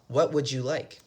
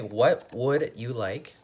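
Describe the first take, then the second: First: It is said quickly, words run together. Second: It is said slowly, each word separate.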